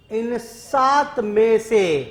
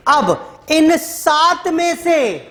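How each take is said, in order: First: Said in the usual way. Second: Slow emphatic teacher stress on इन सात; slow stressed emphasis. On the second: Shown as a demonstration. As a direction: spell out इन सात slowly and higher to stress it. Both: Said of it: "these two cannot be utilized".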